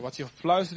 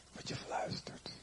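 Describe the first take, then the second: First: Said in the usual way. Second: Slepende, stemloze fluistering; fluisteren. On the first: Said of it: "Wat je fluistert in het oor". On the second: Shown as a demonstration. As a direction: fluister het heel zacht en langzaam. (gefluisterd, bijna onhoorbaar)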